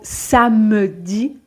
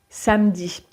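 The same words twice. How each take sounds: First: The middle e vowel is fully pronounced. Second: The middle e vowel is dropped entirely.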